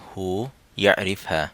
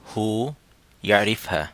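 Both takes have the same delivery.

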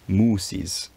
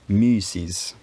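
First: The first vowel is a rounded back vowel. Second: The first vowel is a rounded front vowel. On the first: "Whenever you have a back vowel like u" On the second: "the u gains the front tongue position, even though the lips stay rounded"

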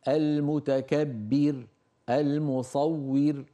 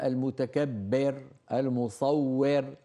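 First: A faint i vowel is heard at each end. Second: Each word ends without any trace of a vowel. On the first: The speaker calls it right. "لما تقف عليها بين الكسرة" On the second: The speaker calls it wrong. "ولا تقول"

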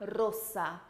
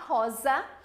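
First: The middle consonant is a hissing s sound. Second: The middle consonant is a buzzing z sound. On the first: The speaker calls it right. "o S entre vogais, que é S" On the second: The speaker calls it wrong. "A gente não tem som de Z em espanhol, tá? Então a gente não vai falar rosa"

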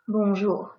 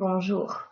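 First: The R is soft with a small vibration. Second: The R is harsh and strongly rasped in the throat. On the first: The speaker calls it right. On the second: The speaker calls it wrong.

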